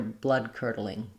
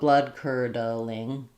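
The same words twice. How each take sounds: First: The phrase is said at a faster pace. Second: The phrase is said at a slow pace. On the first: "Going faster" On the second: "going slow"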